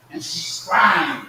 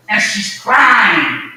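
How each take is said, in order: First: Softer repeat. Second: Preached cry. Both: Real, not acted.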